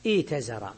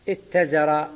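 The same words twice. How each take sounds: First: ايتزر as iitazara, long ii, single t; regular ya form. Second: اتزر as ittazara, short i and doubled t; merged ta. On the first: Teacher gives the regular form, ايتزر with long ii. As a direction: keep the long i in ايتزر, no doubled ta. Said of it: "الياء، فيقال". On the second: Teacher shows the irregular result of merging, اتزر with doubled ta. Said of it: "وأدغموها". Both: Shown as a demonstration.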